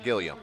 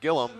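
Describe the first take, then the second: First: The name is said with three syllables. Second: The name is said with two syllables. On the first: The speaker calls it wrong. "not Gilliam" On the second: The speaker calls it right. "It's pronounced like Gillum"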